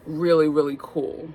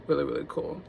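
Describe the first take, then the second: First: Said in the usual way. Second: "Really, really cool" repeated softer and lower, falling; a quieter, dreamier repeat of "really, really cool"; softer echo. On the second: Shown as a demonstration. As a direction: echo yourself under your breath.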